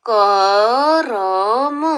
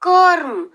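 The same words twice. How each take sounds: First: करम said slowly as ka-ram with a full र; full r sound. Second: कर्म said as karm, the र clipped with no vowel; half r sound. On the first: Teacher to second graders, slow wrong-way reading. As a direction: spell out करम with a full vowel between क and र. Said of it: "अगर हमने ये र पूरा लिख दिया". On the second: Teacher to second graders, correct half-r reading. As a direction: blend क and र into one syllable in कर्म. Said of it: "लेकिन मैं बोल रही हूँ कर्म". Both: Shown as a demonstration.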